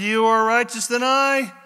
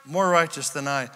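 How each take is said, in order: First: High, loud declaration; declaimed quote. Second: Said in the usual way. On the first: Retold or imitated. Saul admitting to David, declaimed loudly. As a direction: proclaim it loudly, pitched up. Dramatic reading of Saul, then corrected.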